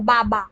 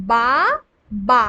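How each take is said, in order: First: Said in the usual way. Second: "বা, বা" as two separate syllables with a pause between. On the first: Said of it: "যখন আমরা পড়ি শব্দ বাবা". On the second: Shown as a demonstration. Teacher splitting a word for pupils to count, "বা, বা" syllable by syllable. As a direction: break it apart: বা, then বা, each drawn out alone. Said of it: "এখানে কটা দল আছে".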